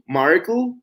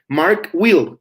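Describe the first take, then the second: First: Will is shortened and joined onto the name. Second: Will is said in full after the name. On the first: The speaker calls it wrong. "it doesn't sound good" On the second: The speaker calls it right. "With names, we will use will"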